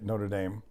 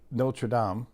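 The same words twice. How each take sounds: First: The name is pronounced the American way. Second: The name is pronounced the French way.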